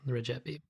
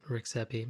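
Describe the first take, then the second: First: The surname is said with an Albanian-style pronunciation. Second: The surname is said with an English-style pronunciation. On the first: The speaker calls it right. "I was told it's" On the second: The speaker calls it wrong. "I had incorrectly pronounced"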